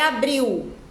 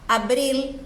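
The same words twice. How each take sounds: First: The final L sounds like a U vowel. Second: The final L is pronounced as a clear L. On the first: The speaker calls it wrong. "Não é abril" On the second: The speaker calls it right. "O L tem que ser pronunciado"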